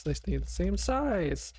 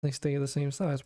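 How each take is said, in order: First: Slow, higher, amazed; amazed disbelief. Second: Said in the usual way. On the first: Real, not acted. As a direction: draw it out in disbelief. Third repeat, amazed at result.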